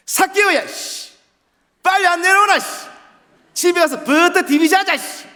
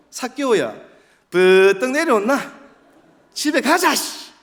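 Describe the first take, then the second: First: Very loud, very high Busan dialect; exaggerated, rough Busan shouting. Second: Loud, high Daegu dialect; bossy call in Daegu dialect. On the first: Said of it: "부산 말투는 더 심하죠". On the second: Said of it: "대구 말씨로". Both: Shown as a demonstration.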